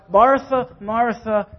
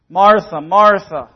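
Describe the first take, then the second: First: "Martha, Martha" said gently, second one easing down; caring call. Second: "Martha, Martha" called out much louder, both falling; emphatic call. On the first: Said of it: "He cares about her". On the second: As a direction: press hard on each "Martha" to stop her short. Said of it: "an emphasis here". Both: Shown as a demonstration.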